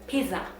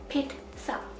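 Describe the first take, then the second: First: The middle has a plain 'z' sound, no 't'. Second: The middle has a 't' sound, like 'ts'. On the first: This follows the spelling of the word. "Pronounce the letters" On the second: This is how it is said in American English. "It does not have a T, but in the U S language, U S English, they call it pizza"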